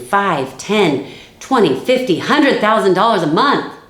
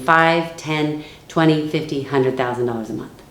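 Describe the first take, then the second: First: The voice grows more excited as numbers rise. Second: The voice drops and calms as numbers rise. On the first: The money is being hyped up. The speaker calls it wrong. "I am not going to say it like this" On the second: The money is not being hyped up. The speaker calls it right. "I make sure the tone of my voice goes down as the numbers go up"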